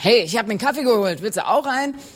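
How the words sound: It is said in a very energetic tone.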